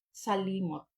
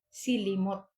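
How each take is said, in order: First: The first syllable has an 'a' vowel. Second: The first syllable has an 'i' vowel. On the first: It is how a native Malay speaker says it. "kung sa Malayo is salimot ... makuha na siya og a" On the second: It is read as a local speaker would read the spelling. "kung ato ang basahon no sa ato ang pinulungan nga Bisaya"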